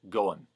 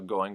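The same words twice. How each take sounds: First: The word ends with a clipped -in. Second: The word ends with a full -ing.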